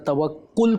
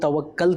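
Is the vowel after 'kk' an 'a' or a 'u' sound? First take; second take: u; a. First: The vowel after the double k sounds like u. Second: The vowel after the double k sounds like a. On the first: The speaker calls it right. "तवक्कुल ही बोलना चाहिए" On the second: The speaker calls it wrong. "तवक्कल कह के बुलाएंगे तो अच्छा नहीं लगेगा"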